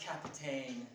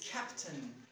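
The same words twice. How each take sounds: First: The last syllable rhymes with the word rain. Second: The last syllable has a short reduced vowel. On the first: The speaker calls it wrong. "It is not Captain" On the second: The speaker calls it right. "It is Captain"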